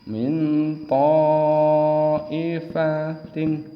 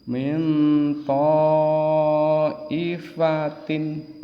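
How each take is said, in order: No difference in how they are said.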